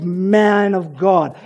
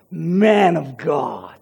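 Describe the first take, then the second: First: Slow, drawn-out man of God laced with scorn; sarcastic man of God. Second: Very slow, low, bitter Man of God; sarcastic man of God. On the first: Preacher quoting the widow's bitter words, slow and sarcastic. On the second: Preacher repeating the widow's jab, low and scornful. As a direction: spit out Man of God with contempt. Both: Shown as a demonstration. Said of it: "hear the sarcasm dripping from her mouth".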